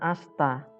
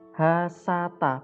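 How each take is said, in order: First: The s joins straight onto the t. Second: A full vowel is heard after the s. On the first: The letters are written with the joining mark. "bukan asta" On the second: The letters are written without the joining mark. "Kalau begini bacanya hasata"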